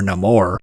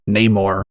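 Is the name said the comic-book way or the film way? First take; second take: film; comic-book. First: The name is said the film way. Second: The name is said the comic-book way.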